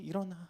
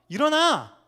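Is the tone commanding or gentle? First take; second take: gentle; commanding. First: It is said as a soft encouragement. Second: It is said as a forceful command.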